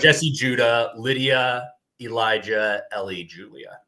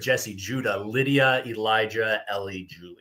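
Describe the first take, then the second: First: The names are said at a normal pace. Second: The names are said fast.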